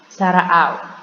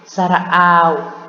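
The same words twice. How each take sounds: First: The vowel is held only briefly. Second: The vowel is drawn out longer. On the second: "panjang ya"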